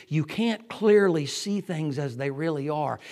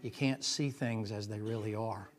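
First: Loud, ringing you can't clearly see; full-force preaching. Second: Said in the usual way. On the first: Real, not acted. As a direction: proclaim it to the back row. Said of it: "first statement".

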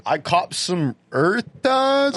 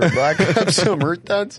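First: Slow, drawn-out surfer dude; lazy, stretched-out surfer talk. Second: Slow surfer drawl through a laugh. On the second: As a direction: laugh while stretching out the surfer voice. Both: Acted. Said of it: "you sound like a surfer".

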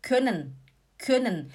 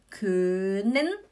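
First: "können" said quickly with a short, punched ö; short vowel. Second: "können" with a long, stretched ö; wrong long vowel. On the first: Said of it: "a gente fala". ("können" rápido, com ö curto) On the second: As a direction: drag out the first vowel of "können". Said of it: "a gente não fala". ("können" errado, com ö bem esticado) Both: Shown as a demonstration.

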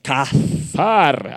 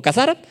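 First: "Cazar" with breathy H in the middle, stress on the second A; Hebrew-style pronunciation. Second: Said in the usual way. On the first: Shown as a demonstration. Preacher demonstrates his Hebrew, "Cazar" with long H and stressed final syllable. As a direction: say "Cazar" drawn out as cah-HAR. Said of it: "así lo pronuncio yo". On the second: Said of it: "como cazar".

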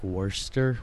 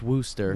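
First: Worcester read as spelled, "WUR-ster"; spelling pronunciation. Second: Worcester said as "WUSS-ter"; correct local pronunciation. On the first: Showing co-host the spelling, Worcester sounded out as "WUR-ster". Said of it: "It's spelled like". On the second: Correcting the sauce mix-up, Worcester said locally as "WUSS-ter". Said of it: "it's pronounced". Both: Shown as a demonstration.

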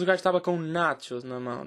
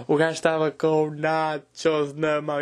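First: Said in the usual way. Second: Drawn out at half speed; slow emphatic repeat. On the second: Retold or imitated. Comedian repeating the absurd detail to the audience, slow and emphatic. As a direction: stretch out each word for emphasis.

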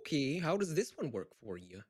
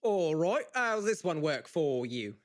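First: Light Minnesota accent at everyday volume. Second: Loud, drawn-out Scottish accent. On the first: Actor trying the audition line, Minnesota accent. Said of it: "Can you do Minnesota?". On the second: Actor trying the audition line, loud Scottish accent. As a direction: project it in a slow Scottish accent. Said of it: "can you do Scottish?". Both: Shown as a demonstration.

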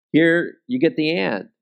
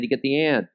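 First: "Here" punched, then "and" falls away; preacher pointing at the word "Here"; stress on HERE. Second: "and" landed with a falling tune; the final "and" given the weight; ad-style stress on AND. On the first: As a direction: open hard on Here and let the rest settle. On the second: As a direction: lean on the word and like a soda ad. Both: Shown as a demonstration. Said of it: "it kept emphasizing the word and".

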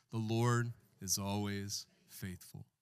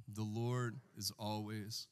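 First: Slow, drawn out with the church; call and response. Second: Slower and softer, trailing off for them to finish; call and response. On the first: Pastor leading the congregation in unison, slow. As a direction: lead the church word by word. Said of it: "Say it with me, church". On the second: Pastor prompting the church to finish, slow and soft. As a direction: leave the last word hanging. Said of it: "One more time". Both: Shown as a demonstration.

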